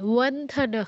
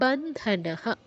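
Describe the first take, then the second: First: The word begins with a w sound. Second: The word begins with a b sound. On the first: The speaker calls it wrong. "ওয়ান্ধনঃ নয়" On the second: The speaker calls it right. "বন্ধনঃ হবে"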